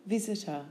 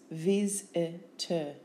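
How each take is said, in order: First: Said in the usual way. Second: Slow Vis-i-ter in three separate beats; syllable by syllable. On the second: Shown as a demonstration. Teacher giving syllables for spelling, Vis-i-ter beat by beat. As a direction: break Vis-i-ter after each syllable.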